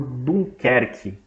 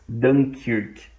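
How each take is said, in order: First: The name is pronounced the Portuguese way. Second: The name is pronounced the English way.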